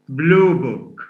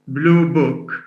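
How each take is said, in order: First: The stress falls on the word blue. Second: The stress falls on the word book. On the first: An examination booklet. "It's a compound" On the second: A book whose color is blue. "the first means a book, a book whose color is blue"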